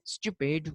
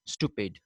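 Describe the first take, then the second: First: Stupid as "styoo-pid"; y glide before the oo in stupid; British pronunciation. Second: Stupid as "stoo-pid"; no y glide in stupid; American pronunciation. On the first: Teacher showing how Britishers say it, stupid as "styoo-pid". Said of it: "The Britishers say". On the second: Teacher contrasting the Americans, stupid as "stoo-pid". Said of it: "while Americans say". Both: Shown as a demonstration.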